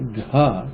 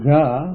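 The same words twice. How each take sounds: First: The consonant has a breathy, aspirated release. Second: The consonant is plain, without a breathy release. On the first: "which is aspirated" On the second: "which is soft"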